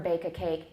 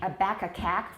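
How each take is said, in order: First: The vowels sound like a full 'ay'. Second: The vowels sound like a short 'a'. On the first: The speaker calls it right. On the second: The speaker calls it wrong.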